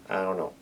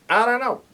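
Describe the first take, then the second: First: Said in the usual way. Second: Squeaky high-pitched I don't know. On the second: Real, not acted. Resigned then squeaky repeat.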